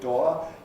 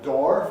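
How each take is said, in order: First: It is said in a regional English accent. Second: It is said in an American accent. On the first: "a door in some kinds of regional English" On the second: "a door for Americans"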